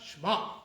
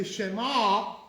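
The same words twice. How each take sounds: First: "Shema" cut down to "shma"; "Shema" in one syllable, SHMA; improper one-syllable Shema. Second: "Shema" as sheh-MA, last syllable loud and held; "Shema" with the sheva clearly voiced; proper two-syllable Shema. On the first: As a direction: say "Shema" with no vowel between sh and m. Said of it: "and not Shema". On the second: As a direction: sound the e in "Shema", then open out the MA. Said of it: "the proper way is to say". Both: Shown as a demonstration.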